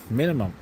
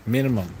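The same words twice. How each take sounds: The two takes are said the same way.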